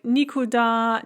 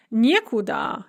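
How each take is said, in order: First: Никуда with unstressed ни, stressed да; stress on last syllable. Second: Некуда with stressed не, said nie; stress on first syllable. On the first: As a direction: land on the да in никуда. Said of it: "nie instead of ni". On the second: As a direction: hit the не in некуда. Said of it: "the stress is on the nie". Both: Shown as a demonstration.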